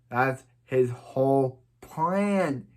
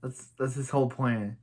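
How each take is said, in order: First: "That's his whole plan" said slowly, each word weighed; slow emphatic repeat. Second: Said in the usual way. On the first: Shown as a demonstration. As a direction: spell out "whole plan" to drive it home.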